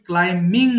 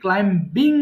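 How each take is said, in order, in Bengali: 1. 'm'-এর পরে কোনো 'b' ধ্বনি শোনা যায় না। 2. 'm'-এর পরে একটি 'b' ধ্বনি শোনা যায়। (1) "অবশ্যই ক্লাইমিং বলবা" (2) "অনেকে ক্লাইম্বিং বলে ফেলি"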